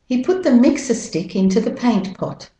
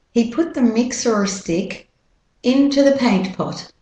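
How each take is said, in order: First: Higher-pitched British-Australian model sentence; British-Australian accent, "mixer" ends in "uh". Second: American R sounded in "mixer"; American-accent model sentence. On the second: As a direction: keep the R in "mixer", American style. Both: Shown as a demonstration. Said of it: "And with the American accent".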